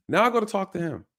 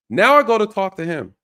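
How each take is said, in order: First: Said in the usual way. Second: "Now I go to talk to him" said loud with stress on I; loud, punchy start of the next part; louder emphasis. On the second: Shown as a demonstration.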